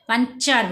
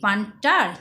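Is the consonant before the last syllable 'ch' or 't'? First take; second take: ch; t. First: The last syllable starts with a 'ch' sound. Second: The last syllable starts with a 't' sound. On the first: The speaker calls it right. "পানচার বলছি" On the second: The speaker calls it wrong. "পানটার না"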